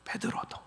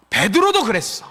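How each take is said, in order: First: 베드로도 whispered, almost no voice; very soft whisper on 베드로도; hushed echo. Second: 베드로도 pitched high and emphatic; full-voiced, raised stress on 베드로도; emphatic revelation. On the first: Acted. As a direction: repeat 베드로도 under your breath. Hushed repeat of Peter's name. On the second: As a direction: punch 베드로도, then let it fall. Lord's voice builds to Peter.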